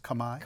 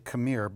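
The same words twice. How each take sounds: First: It is said the native Khmer way. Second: It is said the usual English way. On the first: The speaker calls it right. "the pronunciation, as I understand it, is Khmer" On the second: The speaker calls it wrong. "we would say Khmer"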